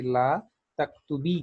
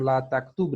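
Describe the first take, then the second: First: "तक्तुबी" ending in a long "ई", slight rise; correct feminine form. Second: "तक्तुब" said ending short on b, no final vowel; wrong form. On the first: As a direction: stretch the final "ई" of "तक्तुबी". ("तक्तुबी" को आखिर में लंबी "ई" के साथ बोलें) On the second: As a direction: say "ला तक्तुब" clipped at the b. ("तक्तुब" को आखिर में बिना "ई" के बोलें) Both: Shown as a demonstration. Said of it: "नहीं, बल्कि".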